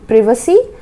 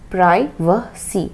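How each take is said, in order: First: The first vowel is a short 'i' (British). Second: The first vowel sounds like 'eye' (American). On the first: "हमारे British के हिसाब से प्रिवेसी" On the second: "American English देखेंगे तो क्या बन जाएगा"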